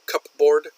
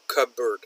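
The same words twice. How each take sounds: First: It is said as two full parts, cup board. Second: It is said reduced, like cubberd. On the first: The speaker calls it wrong. "We don't say cupboard" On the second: The speaker calls it right. "but cupboard"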